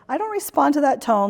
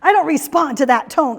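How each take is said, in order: First: It is said in a calm, defusing tone. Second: It is said in a combative, provoking tone.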